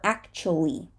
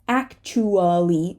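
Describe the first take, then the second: First: One syllable of the word is dropped. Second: Every syllable of the word is pronounced. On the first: The speaker calls it right. "we're going to say" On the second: The speaker calls it wrong. "We're not going to say"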